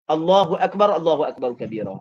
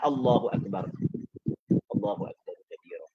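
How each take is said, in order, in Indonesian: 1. Frasanya berjalan terus tanpa jeda. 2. Ada jeda singkat setelah frasa pertama.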